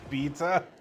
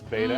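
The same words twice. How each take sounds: First: Beta is said in a British way. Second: Beta is said in a non-British, American way.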